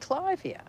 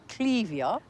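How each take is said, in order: First: The first syllable sounds like 'Clive'. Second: The first syllable does not sound like 'Clive'. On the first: This is how it is said locally. "we say Clivia, as in the man Clive" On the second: This is how it is said in England. "I think in England they say Clevia"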